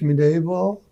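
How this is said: It is pronounced with a French-style sound. "or is it French mini ball?"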